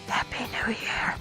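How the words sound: It is said in a whisper. The speaker calls it right.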